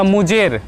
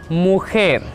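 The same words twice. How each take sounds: First: The j sounds like an English j. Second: The j sounds like a harsh k. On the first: The speaker calls it wrong. "J we cannot uh, pronounce like the mujer. No" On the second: The speaker calls it right. "In Spanish, J sounds like K"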